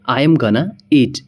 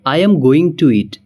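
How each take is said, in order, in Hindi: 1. 'Going to' को घटाकर 'gonna' बोला जाता है। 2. 'Going to' को दो पूरे शब्दों की तरह बोला जाता है।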